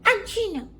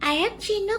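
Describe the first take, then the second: First: I am is contracted into one syllable. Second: I am is said as two full words. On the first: The speaker calls it right. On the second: The speaker calls it wrong. "ఐ యామ్ Chinnu కాదు"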